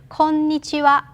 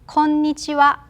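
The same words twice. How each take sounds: The two takes are said the same way.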